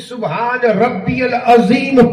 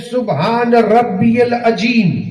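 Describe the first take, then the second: First: The last word begins with a 'z' sound. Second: The last word begins with a 'j' sound. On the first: The speaker calls it right. "ये जो रुकू में सुबहान रब्बियल अजीम पढ़ा जाता है" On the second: The speaker calls it wrong. "कुछ लोग हैं जो पढ़ते हैं ... अजीम पढ़ोगे तो माना बदल जाएगा"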